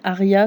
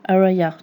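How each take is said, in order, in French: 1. Le nom se prononce à la française. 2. Le nom se prononce à l'anglaise. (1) "je vais le dire en français" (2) "ça se prononce, heu, Araya normalement"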